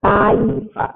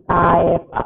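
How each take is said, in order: First: Kaifa with a clear ai diphthong, kai-fa; correct pronunciation. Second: Kaifa said as "kaefa", with an e in the first syllable; mispronounced kaifa with e; wrong pronunciation. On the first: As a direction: say kaifa properly, with the i sound in kai. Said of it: "Yang betul adalah". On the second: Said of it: "pakai e, tapi salah". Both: Shown as a demonstration.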